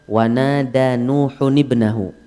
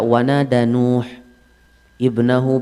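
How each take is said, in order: First: The phrase flows on without stopping after Nuh. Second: The reading stops after Nuh before the object. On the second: "Dia baca wanada Nuh ibnahu begini-begini"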